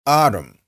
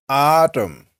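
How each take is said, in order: First: "Autumn" with the t softened to a quick tap, like "ah-dum"; short "Autumn" with a flapped t; everyday tapped t. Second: "Autumn" drawn out, with a crisp t, "ah-tum"; teacher's careful "Autumn", t clearly released; careful full t. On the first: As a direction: say "Autumn" casually, tapping the middle consonant. Everyday take before careful one. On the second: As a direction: stretch the first syllable of "Autumn" and sound the t fully. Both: Shown as a demonstration.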